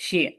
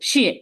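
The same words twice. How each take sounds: First: শিয়ে unstressed, with no tone push; neutral tone. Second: শিয়ে with a forceful falling tone; falling fourth tone. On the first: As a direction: let শিয়ে go light and short. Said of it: "neutral tone". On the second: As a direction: push শিয়ে sharply downward. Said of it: "four টোনটা আমরা একটু ধাক্কা দিয়ে নিচে". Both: Shown as a demonstration.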